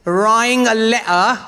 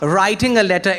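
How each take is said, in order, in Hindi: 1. T की आवाज़ छोड़ी जाती है। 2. T की आवाज़ साफ़ बोली जाती है। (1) "we don't pronounce the T's" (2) "It's not writing a letter"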